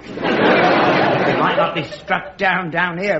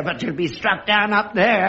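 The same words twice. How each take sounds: First: "down here" leaned on, slowly; stress on DOWN HERE. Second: "up there" leaned on in warning; stress on UP THERE. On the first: Father warns of being struck "down here", emphatic. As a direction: set "down here" apart from what follows. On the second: Father warns of being struck "up there", emphatic. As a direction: land pointedly on "up there". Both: Acted.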